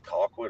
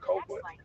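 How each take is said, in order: First: The first syllable sounds like 'call'. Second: The first syllable sounds like 'coal'. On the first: The speaker calls it right. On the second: The speaker calls it wrong.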